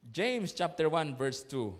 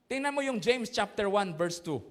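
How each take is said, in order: First: Slow, spaced James chapter one verse two; slow reference. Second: Said in the usual way. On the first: Shown as a demonstration. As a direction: read the verse number slowly for the congregation. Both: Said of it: "Sige nga".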